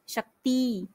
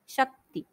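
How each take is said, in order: First: The final vowel is drawn out long. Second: The final vowel is said short. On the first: The speaker calls it wrong. "Last में दो मात्रा का समय लगाते हैं" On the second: The speaker calls it right. "हमें बोलना चाहिए"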